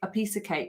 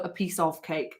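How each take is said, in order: First: The word 'of' is reduced to a weak 'uh'. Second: The word 'of' is pronounced fully and clearly. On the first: The speaker calls it right. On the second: The speaker calls it wrong.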